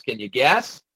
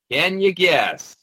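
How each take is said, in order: First: Said in the usual way. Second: "Can you guess" slowed right down, higher, falling at the end; slow, high "Can you guess" with a falling finish; drawn-out teasing. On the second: Acted. Teasing repeated question, last take drawn out.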